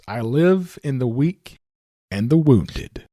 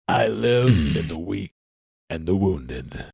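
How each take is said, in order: First: It is read in an ordinary speaking voice. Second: It is said in a put-on deep voice.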